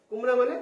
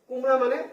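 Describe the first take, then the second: No difference in how they are said.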